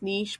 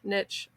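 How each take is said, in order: First: The word does not rhyme with rich. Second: The word rhymes with rich. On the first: "You might pronounce this niche, but that doesn't rhyme with rich" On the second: "So I'm going to say the Rich Niche Finder tool"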